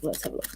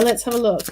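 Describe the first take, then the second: First: Let's have a look trailing off to a murmur; much softer absent-minded repeat; fading mutter. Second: Said in the usual way. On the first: Real, not acted. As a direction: mutter it to yourself while busy. Mutters while turning the cards.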